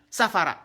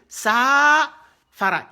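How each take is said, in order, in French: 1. La première voyelle est courte. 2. La première voyelle est longue.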